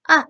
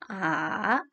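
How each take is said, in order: First: The vowel sounds sharp and angry. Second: The pitch falls and then rises. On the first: "nada empat, saya suka menyebutnya dengan nada marah" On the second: "nada ketiga, kita turun lalu naik"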